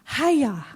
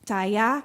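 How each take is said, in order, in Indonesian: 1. Kata ini diawali dengan bunyi h. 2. Kata ini diawali dengan bunyi ch. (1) "Ternyata bacanya gini" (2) "bukan caya itu ya. Nah, itu saya ya, salah"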